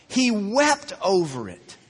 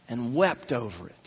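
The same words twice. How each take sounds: First: Slow, weighty stress on "wept". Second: Low, soft solemn reading; hushed scripture reading. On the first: Shown as a demonstration. Preacher making listeners notice the verse, stressing "wept". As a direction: repeat it slowly, leaning firmly on "wept". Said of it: "Man, listen to that". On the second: A narrator's reading. Preacher reading that Jesus wept over the city, hushed. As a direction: let the verse drop low and quiet. Reads verse before repeating it.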